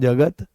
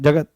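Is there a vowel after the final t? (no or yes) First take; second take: yes; no. First: The final t is followed by a short vowel. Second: The word ends in a bare t sound. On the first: The wall around a well. "अ निकल रहा है" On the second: The world. "त पूरा नहीं है"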